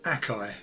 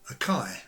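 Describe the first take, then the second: First: The stress is on the first syllable. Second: The stress is on the second syllable. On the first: The speaker calls it wrong. "with the emphasis on the A, and this was incorrect" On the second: The speaker calls it right. "The emphasis is on the second syllable"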